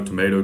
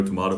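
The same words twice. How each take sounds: First: "tomato" as to-MAY-to. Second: "tomato" as to-MAH-to. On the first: Continuing the typical rhyme, "tomato" as to-MAY-to. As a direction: say "tomato" with a long a as in day. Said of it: "the typical". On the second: Ending the rhyme, "tomato" as to-MAH-to. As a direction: say "tomato" with an open ah. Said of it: "Nobody says tomato". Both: Shown as a demonstration.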